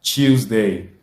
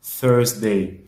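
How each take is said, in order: First: Tuesday said clearly, set against Thursday; teacher models Tuesday to tell it from Thursday; model pronunciation. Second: Thursday said clearly with th, set against Tuesday; teacher models Thursday against Tuesday; model pronunciation. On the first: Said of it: "rappelons que mardi est Tuesday". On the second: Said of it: "Mais jeudi est Thursday". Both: Shown as a demonstration.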